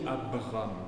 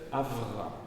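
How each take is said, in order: First: The middle consonant is a stopped b. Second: The middle consonant is a hissing v. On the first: This is the form used in French. "Nous, on dit Abram, parce que nous, nous aimons les explosives. B" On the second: This is the original Hebrew form. "Mais à l'origine, c'est Avram"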